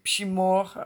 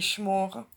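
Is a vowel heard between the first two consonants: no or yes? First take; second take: yes; no. First: A vowel is heard after the first consonant. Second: No vowel is heard after the first consonant. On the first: The speaker calls it wrong. "není šimor" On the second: The speaker calls it right. "ale je šmor"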